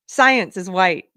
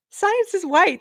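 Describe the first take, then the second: First: Said in the usual way. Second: Much higher mock voice, parroting the claim; high, incredulous mimicry of what they teach; mocking echo. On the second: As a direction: echo the claim back in a high, sneering pitch. Repeats the claim in mockery.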